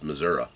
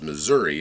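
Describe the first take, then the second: First: The name is said the local Southern way. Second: The name is said the standard way. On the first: "that's how they pronounce it" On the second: "saying Missouri as Missouri"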